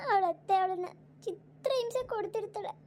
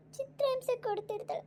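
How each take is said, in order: First: Tearful mother sobbing out her worry; words breaking with tears over her daughter; crying. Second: Crying repeat. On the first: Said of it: "ಯಾಕ್ ಅಮ್ಮ ಹಿಂಗ್ ಅಳ್ತಾ ಕೂತಿರೋದು?". (ಅಳುತ್ತಾ) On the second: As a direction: let the repeat crack up into a whimper. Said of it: "ಯಾಕ್ ಅಮ್ಮ ಹିಂಗ್ ಅಳ್ತಾ ಕೂತಿರೋದು?". (ಎತ್ತರದ ದನಿಯಲ್ಲಿ ಮೆಲ್ಲನೆ ಅಳುತ್ತಾ) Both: Acted.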